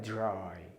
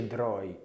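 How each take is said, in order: First: It starts with a j-like sound before r. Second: It starts with a plain, clear d sound. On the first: The speaker calls it right. "لما الدي يجي جنب الار انطق جي جي جي جي" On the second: The speaker calls it wrong. "ما تقولش dry"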